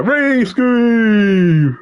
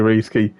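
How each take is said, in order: First: Long, slow, higher call of the name; drawn-out name call. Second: Said in the usual way. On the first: Real, not acted. Commentator hyping his co-commentator, drawn-out higher call. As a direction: stretch the name out like a hype announcer.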